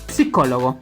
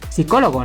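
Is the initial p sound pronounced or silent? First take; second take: pronounced; silent. First: The word begins with a clear p sound. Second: The word begins without a p sound. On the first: "la P S se pronuncia la P" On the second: "a diferencia del español que solamente decimos psicólogo"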